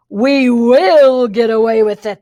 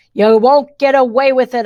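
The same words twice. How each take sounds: First: Loud, slow villain twins' yell, pitched oddly; yelled in unison. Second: Louder, defiant challenge to the villains. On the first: Twins shouting back at the girl, slow and loud. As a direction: hammer back the boast as two villains. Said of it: "they yelled in unison". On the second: Girl goading the twins into ranting, louder and defiant. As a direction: bait them with a bold threat. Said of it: "a good trigger". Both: Acted.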